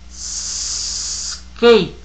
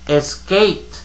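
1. La palabra empieza directamente con una s larga. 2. Un sonido e extra va antes de la s.

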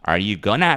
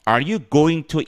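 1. 'going to'는 'gonna'로 줄여서 발음해요. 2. 'going to'는 원래 형태로 발음해요.

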